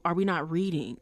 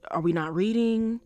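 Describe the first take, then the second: First: A laugh breaking into the question. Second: Said in the usual way. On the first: Real, not acted. To viewers who misread the show, laughing. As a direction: laugh as you repeat it, amused at the viewers.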